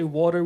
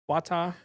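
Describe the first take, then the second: First: The word has a standard American pronunciation. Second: The word has a Jamaican pronunciation without the r. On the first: This is the way visitors say it. The speaker calls it wrong. "We don't say water" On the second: This is the way locals say it. The speaker calls it right. "We say wada, wata"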